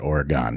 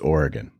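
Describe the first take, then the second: First: The last syllable is full, sounding like 'gone'. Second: The last syllable is reduced, sounding like 'gun'. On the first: The speaker calls it wrong. "not Oregon. Didn't go anywhere" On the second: The speaker calls it right. "It's it's Oregon"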